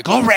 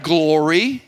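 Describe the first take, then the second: First: Big, high preacher shout; T D Jakes. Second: Said in the usual way. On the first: Shown as a demonstration. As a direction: belt it out like a revival preacher. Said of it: "put a little T D Jakes on it". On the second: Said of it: "It's not glory".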